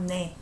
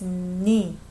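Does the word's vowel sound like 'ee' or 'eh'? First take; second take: eh; ee. First: The vowel sounds like 'eh'. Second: The vowel sounds like 'ee'. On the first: The speaker calls it wrong. "not 네" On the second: The speaker calls it right. "I pronounce as 니"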